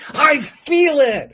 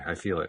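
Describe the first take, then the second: First: It is said with lively enthusiasm. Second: It is said flatly, without enthusiasm. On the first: The feeling is genuinely felt. The speaker calls it right. "It's another thing to say, I feel it. It's a different kind of feeling" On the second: The feeling is only claimed, not felt. The speaker calls it wrong. "it's one thing to say, okay, I feel it"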